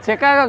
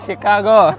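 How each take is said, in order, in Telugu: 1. ఈ పదం ch శబ్దంతో మొదలవుతుంది. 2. ఈ పదం sh శబ్దంతో మొదలవుతుంది.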